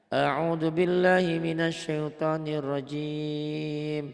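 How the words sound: There is a pause after rajim. "Tuh diputus, diwakaf"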